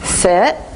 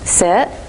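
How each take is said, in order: Both takes have the same delivery.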